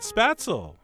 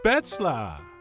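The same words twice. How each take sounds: First: It is said with an American pronunciation. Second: It is said with a German pronunciation.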